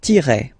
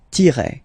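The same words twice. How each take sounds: First: "tiret" with French r and silent t. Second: "tiret" again, tee-reh, French r; repeated French tiret. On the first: Teacher naming the dash in French. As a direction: say "tiret" as tee-reh. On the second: Teacher repeating the dash name. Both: Shown as a demonstration. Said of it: "we called it".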